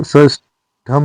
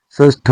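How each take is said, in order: First: षष्ठम closing on tham; wrong -am ending. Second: षष्ठ ending on retroflex th; correct bare ending. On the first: Teacher showing learners the mistake, षष्ठम with final m. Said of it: "षष्ठ होता है". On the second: Teacher giving learners the correction, षष्ठ without m. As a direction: say षष्ठ with no final m. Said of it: "षष्ठम नहीं होता". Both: Shown as a demonstration.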